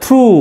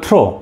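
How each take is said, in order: First: The word ends in an 'oo' vowel. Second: The word ends in an 'oh' vowel. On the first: The speaker calls it right. "It's a থ্রু" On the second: The speaker calls it wrong. "এটা অনেকে বলবে থ্রো"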